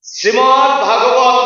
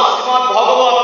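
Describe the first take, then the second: First: "ভাগবত" with a long open "ভা", drawn out slowly and sung; wrong pronunciation. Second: "ভগবত" with a short "ভ", no long a, stress on "ভগবত"; correct pronunciation. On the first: Preacher chants the wrong name slowly to the congregation. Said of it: "ভাগবত না". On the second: Preacher corrects the congregation, stressing the short "ভ". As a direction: say "শ্রীমদ্ ভগবত" with a short first vowel. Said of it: "শ্রীমদ্ ভাগবত না". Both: Shown as a demonstration.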